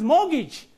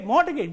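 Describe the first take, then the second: First: No t sound is heard in the middle. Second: A t sound is heard in the middle. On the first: The speaker calls it right. "The word is mortgage" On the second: The speaker calls it wrong. "You say mortgage, but it is incorrect"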